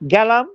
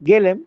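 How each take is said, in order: First: The word ends with the syllable 'lam'. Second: The word ends with the syllable 'lem'. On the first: It is the northern regional form. "সব লাম দিয়ে বলেন" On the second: It is the Shantipur regional form. "Shantipur, Nabadwip, লেম"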